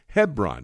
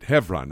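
First: The middle consonant is a B sound. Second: The middle consonant is a V sound. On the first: It is the name of towns in the American South. "in the South, they have a bunch of cities named Hebron, H-E-B-R-O-N" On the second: It is the Hebrew name of the ancient city. "you may hear me pronouncing it Hebron, H-E-V-R-O-N"

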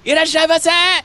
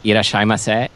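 First: The greeting is said loudly, with lively energy. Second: The greeting is said flatly, without energy.

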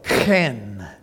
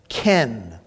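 First: It starts with a raspy throat sound. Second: It starts with a plain k sound. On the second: "it sounds like the name Ken"

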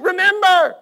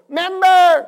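First: The word is said with its full first syllable. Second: The word is said with its first syllable dropped.

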